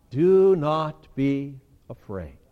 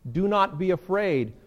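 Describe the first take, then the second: First: "Do not be afraid" drawn out slow, each word weighted; slow solemn. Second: Said in the usual way. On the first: Shown as a demonstration. God comforting his terrified people, slow and solemn. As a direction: speak it slowly, as God would. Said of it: "What does he say to them?". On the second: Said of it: "the other phrase in his statement".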